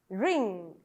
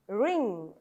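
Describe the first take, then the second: The two takes are said the same way.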